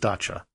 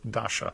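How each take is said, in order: First: The middle consonant is a 'ch' sound. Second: The middle consonant is a soft 'sh' sound. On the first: The speaker calls it right. "but it is dacha" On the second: The speaker calls it wrong. "I mispronounced the word dacha, and I said it as dasha"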